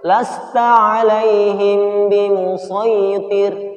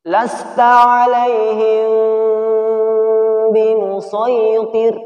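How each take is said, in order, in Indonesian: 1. Dengung sebelum huruf b dipotong pendek. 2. Dengung sebelum huruf b ditahan panjang. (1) "ini cara membaca yang salah" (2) "ditahan dua harokat"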